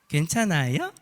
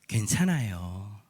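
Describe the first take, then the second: First: The pitch rises at the end. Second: The pitch falls at the end. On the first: It asks with concern whether the other person is okay. "억양도 뒤에를 올려야 돼요" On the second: It offers sincere comfort. "진정한 위로의 뉘앙스"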